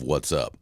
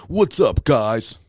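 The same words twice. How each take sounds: First: Said in the usual way. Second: Mock hyped YouTuber "What's up, guys?", much higher and louder; YouTuber greeting. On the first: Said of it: "The rhetorical question of". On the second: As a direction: ham up the big YouTube intro. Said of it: "when you watch videos on YouTube".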